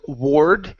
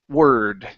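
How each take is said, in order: First: The vowel sounds like 'or'. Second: The vowel sounds like 'er'. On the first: The speaker calls it wrong. "instead of ward with an O R" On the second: The speaker calls it right. "pronounced with an E R sound"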